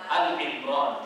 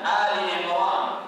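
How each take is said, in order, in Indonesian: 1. Vokal pembukanya pendek dan terpotong. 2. Vokal pembukanya dipanjangkan. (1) "Al Imran tidak benar" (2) "Yang benar adalah panjangkan"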